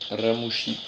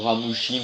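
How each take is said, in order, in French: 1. Le nom est prononcé avec un accent japonais. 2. Le nom est prononcé avec un accent français.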